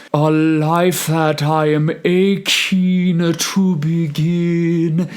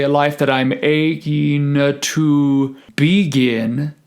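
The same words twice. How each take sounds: First: High, slow singing with a short i in the first syllable of begin; sung with mixed vowel. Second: Slow phrase with "begin" said BEE-gin, a long ee first; emphasized E vowel. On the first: Choir teacher showing the vowel being mixed, sung phrase. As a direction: sing it slowly, stressing "-gin" of begin. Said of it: "the I vowel being mixed". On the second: Choir teacher contrasting vowels, first syllable of "begin" overemphasized. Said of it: "the E vowel is emphasized on begin". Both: Shown as a demonstration.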